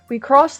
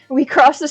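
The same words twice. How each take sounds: First: It is read in a put-on character voice. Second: It is read in a natural everyday voice.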